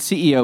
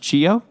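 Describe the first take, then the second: First: The word begins with an 's' sound. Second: The word begins with a 'ch' sound. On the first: The speaker calls it wrong. "So you're saying CEO" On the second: The speaker calls it right. "I think it's actually pronounced Chio"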